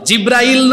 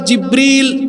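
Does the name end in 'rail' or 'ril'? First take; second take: rail; ril. First: The last syllable is said as 'rail'. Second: The last syllable is said as 'ril'. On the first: The speaker calls it wrong. "নাম হলো জিব্রাইল নয়" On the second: The speaker calls it right. "এই ফেরেশতার নাম হলো জিব্রিল"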